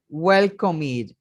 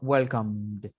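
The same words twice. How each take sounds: First: The ending is said as an extra syllable. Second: The ending is joined without an extra syllable. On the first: The speaker calls it wrong. "yo no puedo decir welcomed" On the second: The speaker calls it right. "Yo no pronuncio la E"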